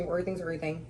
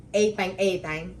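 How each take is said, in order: First: Said in the usual way. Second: "A thing, a thing" drawn out slowly. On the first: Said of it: "I'm sorry, that's wrong". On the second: Retold or imitated. Fan quoting rapper's title her way, "A thing" as "ay thang". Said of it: "like she said".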